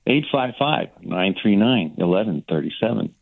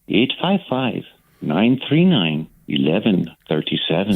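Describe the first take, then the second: First: It is said in his own natural voice. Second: It is said in a put-on announcer voice.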